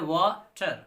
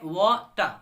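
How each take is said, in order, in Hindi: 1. अंतिम r ध्वनि स्पष्ट रूप से उच्चारित होती है। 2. शब्द स्वर पर समाप्त होता है, r के बिना। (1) "हम तो यहाँ बोलते हैं वाटर" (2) "ब्रिटिश में इसको बोलेंगे वाटर, टा पर रुक जाएंगे, आर गायब कर देंगे"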